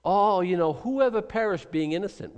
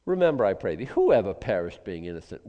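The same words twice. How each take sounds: First: Smug, sing-song mock of a know-it-all; mocking Eliphaz. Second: Quoting Eliphaz. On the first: Preacher mocking Eliphaz's glib line, smug sing-song. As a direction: lift it up high and smug. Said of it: "So here's his big". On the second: Retold or imitated. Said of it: "Eliphaz would have made a great health and wealth gospel guy".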